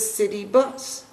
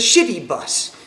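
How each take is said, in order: First: The first word begins with a plain 's' sound. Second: The first word begins with an 'sh' sound. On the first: "I asked for the city bus" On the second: "cha in Sanskrit is pronounced as a sha"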